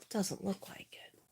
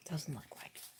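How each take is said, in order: First: Said in the usual way. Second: Much softer, whispered repeat; whispered echo. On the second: Real, not acted. Streamer repeats it to herself, barely whispered. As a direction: say it again under your breath. Repeats it under her breath.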